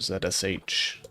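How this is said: The letter Z is said the British way.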